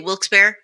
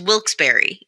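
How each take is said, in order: First: The name is said quickly and run together. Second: The name is said slowly with every syllable full. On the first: This is how people from the area say it. "locals do tend to say Wilkes-Barre, just like real quick" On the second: This is the proper name of the town. "it's Wilkes-Barre is the name of the town"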